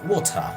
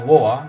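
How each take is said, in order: First: The t sound is pronounced strongly. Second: The t sound is dropped in the middle.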